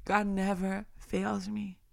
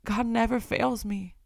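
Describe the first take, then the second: First: Repeated much softer, inward; quiet reverent repeat. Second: Said in the usual way. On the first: Acted. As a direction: drop the voice and say it to yourself. Repeats line, softer second take.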